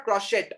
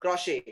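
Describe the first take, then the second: First: Crochet as "kro-shet", T sounded; wrong crochet. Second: Crochet as "kro-shay", silent T, falling; correct crochet. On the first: Teacher showing the mistake, crochet as "kro-shet". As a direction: close crochet on a hard final T. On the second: Teacher correcting the mistake, crochet as "kro-shay". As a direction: leave crochet open on "shay". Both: Shown as a demonstration. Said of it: "It is not crochet".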